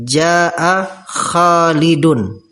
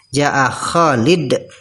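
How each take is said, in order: First: The name ends with a clear n sound. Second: The name ends without a final n sound. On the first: The speech continues without stopping. "maka nunnya itu diucapkan" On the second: The speaker stops at the end of the word. "kalau wakof kan sukun"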